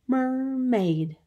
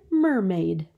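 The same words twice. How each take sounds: First: "Mermaid" stretched into two high, even beats; syllable by syllable. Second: Said in the usual way. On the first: Shown as a demonstration. Teacher showing two syllables, "Mermaid" drawn out in two. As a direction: draw out both syllables of "Mermaid". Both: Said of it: "Two syllables".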